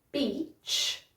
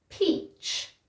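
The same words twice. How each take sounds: First: Beach said softly, lips just meeting on the B; a gentle B in beach. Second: Peach with a breathy, aspirated P; peach with a puffed P. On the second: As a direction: pop the P in peach with air. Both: Shown as a demonstration. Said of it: "So let's try".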